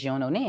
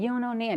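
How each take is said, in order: First: Said in the usual way. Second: Sung-out hook, pitched up high; imitating the record's hook; hook line, high. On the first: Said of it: "It was nothing but just". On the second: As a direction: repeat the hook high and drawn. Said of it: "I just kept saying".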